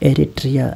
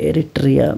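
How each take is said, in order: No difference in how they are said.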